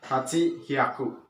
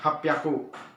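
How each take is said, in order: First: The number is said as two full parts. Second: The number is contracted with a doubled consonant. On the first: The speaker calls it wrong. "bukan haji hiaku" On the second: The speaker calls it right. "itu hapyaku"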